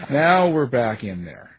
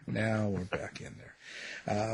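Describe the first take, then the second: First: Louder, punchy radio host announcement. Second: Much softer and slower, trailing away; quiet slow echo. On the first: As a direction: belt it out like going back on air. Host announcing return to studio. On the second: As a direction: let it fade like a muttered echo. Host repeating the return line. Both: Pretend.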